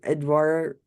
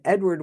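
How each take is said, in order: First: It is said with an attempted French accent. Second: It is said in a plain English accent.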